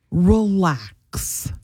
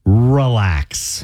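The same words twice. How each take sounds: First: Drawn-out, deadpan husband's relax; smug, slow, unbothered relax. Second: Drawn-out, lower relax, imitating a husband; slow, smug mock-husband relax; husband's annoying relax. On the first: Retold or imitated. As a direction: imitate a smug husband, stretching the word out. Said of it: "he's got this smug". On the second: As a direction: stretch out a patronizing relax. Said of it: "That's how he says it".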